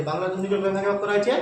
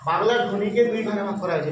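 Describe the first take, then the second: First: Rising, prompting tune on হয়েছে; quizzing rise. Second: Said in the usual way. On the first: Shown as a demonstration. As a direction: lift হয়েছে at the end to invite the answer. Teacher repeats it as quiz prompt. (শেষে হয়েছে-তে প্রশ্নের সুর)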